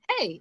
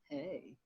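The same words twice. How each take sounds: First: It is said in a plain, neutral way. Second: It is said with a drawn-out, sultry inflection.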